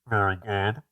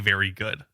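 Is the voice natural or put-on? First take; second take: put-on; natural. First: It is said in a put-on voice from the throat. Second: It is said in a plain, natural voice.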